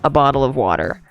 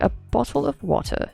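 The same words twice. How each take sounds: First: It is said in an American accent. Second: It is said in a British accent.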